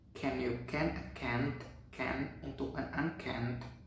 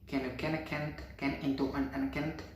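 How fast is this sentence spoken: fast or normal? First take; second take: normal; fast. First: It is spoken at a normal speed. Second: It is spoken at a fast speed. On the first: "Normal mode" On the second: "Fast mode"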